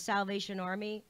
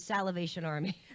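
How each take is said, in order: First: Salvation is said with three syllables. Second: Salvation is said with an extra fourth syllable. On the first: "instead of the the Salvation Army" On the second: "add syllables to things"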